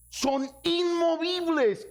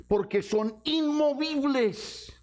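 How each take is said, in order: First: Inmovibles higher still, slow and ringing; stronger emphasis. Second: Inmovibles stretched slowly and high; emphasis. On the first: Pastor repeating inmovibles to the church, ringing emphasis. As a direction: hammer inmovibles home even higher. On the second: Pastor stressing inmovibles to the church, slow emphasis. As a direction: lean on inmovibles. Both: Shown as a demonstration.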